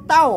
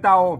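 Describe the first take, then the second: First: The syllable is said on a falling tone. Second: The syllable is said on a low tone. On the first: "ใส่ไม่โท" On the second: "เตาใส่ไม่เอก"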